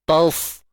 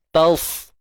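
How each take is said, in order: The two takes are said the same way.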